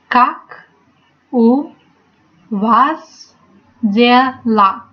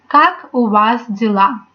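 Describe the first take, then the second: First: It is said more slowly. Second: It is said fairly quickly.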